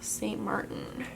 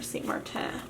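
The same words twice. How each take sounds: First: The name is said with English pronunciation. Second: The name is said with French pronunciation.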